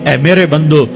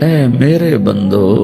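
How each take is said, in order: First: It is said in a plain, neutral tone. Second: It is said in a warm, tender tone. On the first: The speaker calls it wrong. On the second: The speaker calls it right.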